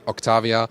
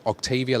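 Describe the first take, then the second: First: The name is pronounced in a German/Czech style. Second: The name is pronounced in an English style. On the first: The speaker prefers this pronunciation. "German-ish or Czech" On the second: Someone else prefers this pronunciation. "like the U K-ish pronunciation"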